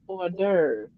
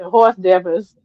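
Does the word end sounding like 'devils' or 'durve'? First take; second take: durve; devils. First: It is said the French way, ending 'durve'. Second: It is said like English 'horse devils'. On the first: The speaker calls it right. "that's a French word. It's pronounced hors d'oeuvre" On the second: The speaker calls it wrong. "I said, horse devils"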